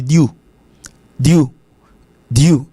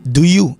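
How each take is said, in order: First: "do you" merged into "dyoo"; contracted "do you", said as "dyoo"; one syllable. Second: "do you" as two full words, "doo yoo"; careful, uncontracted "do you"; two syllables. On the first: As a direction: squeeze "do you" into a single syllable. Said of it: "avec une seule syllabe". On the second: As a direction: give "do you" both its syllables. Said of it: "ça fait deux syllabes". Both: Shown as a demonstration.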